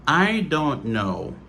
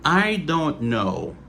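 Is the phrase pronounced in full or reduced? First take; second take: full; full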